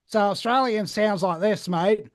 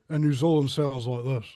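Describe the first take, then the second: First: Nasal Australian accent, higher and louder. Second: New Zealand accent with little jaw movement. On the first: Showing how Australians sound, nasal Australian accent. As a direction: put on a loud, nasal Australian twang. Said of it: "you use the nasal passages more". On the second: Showing how New Zealanders sound, tight-jawed New Zealand accent. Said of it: "you don't move the jaw as much". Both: Shown as a demonstration.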